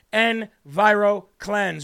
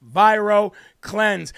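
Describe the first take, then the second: First: Slow, stretched EnviroKlenz; drawn-out brand name. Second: Very slow, loud Viro Cleanse; drawn-out brand name, louder. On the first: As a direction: draw out EnviroKlenz syllable by syllable. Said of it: "Say it with me". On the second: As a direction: stretch out Viro Cleanse with a push. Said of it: "One more time". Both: Shown as a demonstration.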